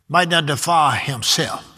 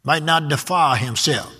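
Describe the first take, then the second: First: "Might" hit first and hardest, "defile" lighter; stress on might. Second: "defile" leaned on hardest, "Might not" kept light; stress on defile. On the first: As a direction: open by punching "Might". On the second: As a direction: land the weight on "defile". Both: Shown as a demonstration. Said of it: "the word defile is in there".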